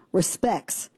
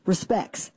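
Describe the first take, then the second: First: Respects said as respecks, ending in ks. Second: Respects again as respecks, t dropped; spelled-out respecks said back. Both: Shown as a demonstration. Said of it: "R E S P E C K S".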